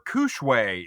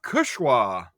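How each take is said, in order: First: The name ends with an 'ay' sound. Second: The name ends with an 'ah' sound. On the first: The speaker calls it wrong. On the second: The speaker calls it right.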